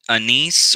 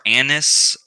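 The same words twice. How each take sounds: First: "anise" stressed on the second syllable, uh-NEECE; alternate pronunciation. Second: "anise" stressed on the first syllable, AN-iss; alternate pronunciation. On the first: Presenter listing oils offers one pronunciation, "anise" as uh-NEECE. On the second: Presenter listing oils offers another pronunciation, "anise" as AN-iss. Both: Shown as a demonstration. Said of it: "anise or anise".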